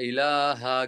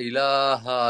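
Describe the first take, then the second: Both takes have the same delivery.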